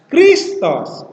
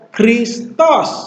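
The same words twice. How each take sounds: First: The pitch does not rise on the last syllable. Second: The pitch rises on the last syllable. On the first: The speaker calls it wrong. "bukan Kristos" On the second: The speaker calls it right. "jadi dibaca Kristos, Naik bagian tosnya"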